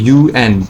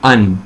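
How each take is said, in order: First: It is spoken as two separate letters. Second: It is spoken as a single word. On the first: The speaker calls it right. "हम कहते हैं यूएन" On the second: The speaker calls it wrong. "हम ये नहीं कहते कि अन, because it is not pronounced as a single word"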